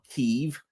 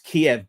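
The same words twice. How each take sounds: First: The name is said in a non-English form. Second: The name is said in its English form. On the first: The speaker calls it wrong. "not Kiev" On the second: The speaker calls it right. "it's Kiev, by the way, in English"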